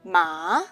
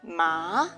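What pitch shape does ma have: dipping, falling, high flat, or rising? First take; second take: rising; rising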